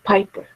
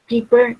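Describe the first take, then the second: First: The first vowel sounds like 'eye'. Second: The first vowel sounds like 'ee'. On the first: The speaker calls it right. "instead of piper" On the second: The speaker calls it wrong. "You're saying peeper"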